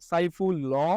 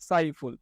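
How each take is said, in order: First: An extra vowel is sounded after the final l. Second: The word ends on the l with no vowel. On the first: The speaker calls it wrong. "আমরা তো উচ্চারণের সময় বলি না" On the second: The speaker calls it right. "আমরা কি বলি"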